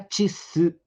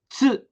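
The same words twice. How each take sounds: First: It is split into two syllables. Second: It is said as one single syllable. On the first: The speaker calls it wrong. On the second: The speaker calls it right.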